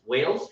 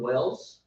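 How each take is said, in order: First: "Wales" with a long ay, like "whales"; corrected Wales. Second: "Wales" said with a short e, like "wells"; mispronounced Wales. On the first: Speaker settling on the country's name, "Wales" sounded as "whales". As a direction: say "Wales" to rhyme with "sails". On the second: Speaker trying the country's name, "Wales" sounded as "wells". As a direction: say "Wales" to rhyme with "bells". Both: Shown as a demonstration. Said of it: "Wales, Wales".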